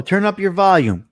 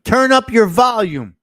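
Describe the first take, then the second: First: A touch louder, asking to be heard; speaking up. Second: Much louder and higher, near a shout; shouted request. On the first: Host asks a listener to turn up, speaking up. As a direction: raise the voice so the listener can hear. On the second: Host repeats the request to turn up, shouting it. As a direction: call it out so even a low speaker hears. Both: Shown as a demonstration. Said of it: "Speak up too low".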